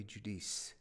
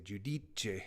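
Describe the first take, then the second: First: "Judice" as two syllables, joo-DEECE; English-style pronunciation. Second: "Giudice" as three syllables with a final CHAY; slow Italian "Giudice", ending in a CH sound and vowel; Italian pronunciation. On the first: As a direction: end "Judice" on an S sound. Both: Shown as a demonstration. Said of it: "In Italian, you'd say".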